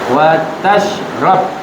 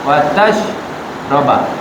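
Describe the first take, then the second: First: The last word ends with no vowel. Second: The last word ends with an a vowel. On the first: "Bisukun akan jadi apa?" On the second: "Kalau bil fathah"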